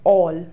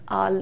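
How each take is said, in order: First: The vowel is a rounded 'aw' sound. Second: The vowel is an open 'ah' sound. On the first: The speaker calls it right. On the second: The speaker calls it wrong.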